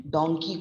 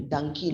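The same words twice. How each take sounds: First: "donkey" with an o, "DONG-kee"; standard pronunciation. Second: "donkey" as "DUNG-kee"; wrong rhyme with monkey. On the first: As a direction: say "donkey" with a rounded o. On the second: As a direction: mispronounce "donkey" with a short uh. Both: Shown as a demonstration. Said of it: "donkey को donkey नहीं बोलते".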